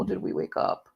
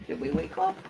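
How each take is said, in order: First: Quiet, gentle question; hushed pet talk at usual pitch; soft puppy talk. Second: Tiny, high, soft pet voice; high cooing. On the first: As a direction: ask softly of a waking puppy. First question to waking puppy. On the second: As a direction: coo it up high to a puppy. Repeats question in cooing voice. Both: Real, not acted.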